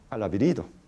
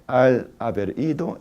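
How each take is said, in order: First: The words are linked into one quick chain. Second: Each word is said separately and carefully. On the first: This is how it is said among friends. "sino al haber ido" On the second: This is the formal way to say it. "en el habla formal"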